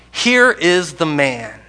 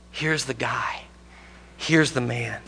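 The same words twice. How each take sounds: First: Pilate presenting Jesus. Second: Hushed Pilate. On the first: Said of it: "said to them". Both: Acted.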